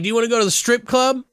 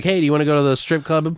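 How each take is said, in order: First: Very high, fast, hammed-up invitation; sing-song it like a wheedling pal; goofy high invite. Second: Quick, lightly voiced invitation, a bit higher; playful invite. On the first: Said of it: "he's like". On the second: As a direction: tease him into going out. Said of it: "Maybe he's like".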